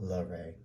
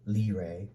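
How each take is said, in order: First: The name is said in a French-sounding way. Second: The name is said in a plain American way. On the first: The speaker calls it wrong. "he don't like the French" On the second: The speaker calls it right. "Think of just like redneck"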